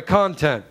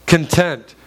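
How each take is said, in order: First: "content." said as CON-tent, stress on the first syllable; "content." with the weight on CON, the noun for material; corrected stress. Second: "content" said as con-TENT, stress on the second syllable; "content" with the weight on TENT, like the word for satisfied; wrong stress slip. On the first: Preacher corrects his own slip, stressing CON. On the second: Preacher slips on the word before correcting himself, stress on TENT. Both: Shown as a demonstration. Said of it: "Uh, I'm sorry".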